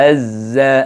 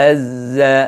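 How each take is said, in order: The two takes are said the same way.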